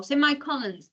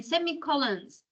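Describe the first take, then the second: First: Semicolons with "semi" as SEM-eye; alternative pronunciation. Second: Said in the usual way. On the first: Shown as a demonstration. Teacher offering students another way to say semicolons, as sem-eye-colons. Second variant after "or.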